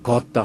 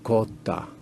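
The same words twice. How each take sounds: First: The first vowel is said with unrounded lips. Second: The first vowel is said with slightly rounded lips. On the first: This is the southern way of saying it. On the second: This is the northern way of saying it.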